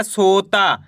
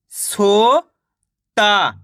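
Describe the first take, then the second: First: Said in the usual way. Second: सोता split as सो, pause, ता; सोता slowly sounded out in two parts; syllable by syllable. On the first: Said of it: "मिलके बन जाएगा". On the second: Shown as a demonstration. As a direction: stretch सो upward, then ता alone. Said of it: "एक अक्षर का उच्चारण करके".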